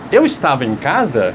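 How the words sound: It is said with question intonation. It asks whether it is true. "Passou a ser uma pergunta. Então, só a sua entonação já mudou"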